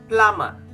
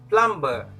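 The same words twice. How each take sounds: First: The B sound is silent. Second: The B sound is pronounced. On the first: The speaker calls it right. "I want you to silent the letter B" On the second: The speaker calls it wrong. "Most people will say plumber. It's wrong"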